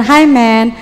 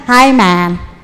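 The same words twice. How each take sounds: First: "man" said as "men", narrow e; wrong plural "men". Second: "man" with an open "ae", low-pitched; "Hi, man" with a broad "maen", pitched low; correct singular "man". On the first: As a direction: mistaken "Hi, men" with a plain short vowel. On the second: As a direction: open up "man" like the vowel in "cat". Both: Shown as a demonstration.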